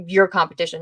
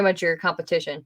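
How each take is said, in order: First: "your" picked out firmly, the rest falling away; stress on YOUR. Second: Said in the usual way. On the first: Real, not acted. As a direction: lean on "your" as a correction. Corrects to a firmer claim.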